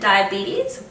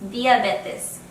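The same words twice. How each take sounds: First: It is pronounced with an English accent. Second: It is pronounced with a Spanish accent. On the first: "instead of saying diabetes" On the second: "just pronounced with a Spanish accent"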